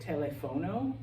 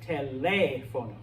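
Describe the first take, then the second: First: The stress is on the third syllable. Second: The stress is on the second syllable. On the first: The speaker calls it wrong. "a lot of English speakers want to pronounce it telefono" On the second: The speaker calls it right. "because we have an accent mark on the E here, this word is teléfono"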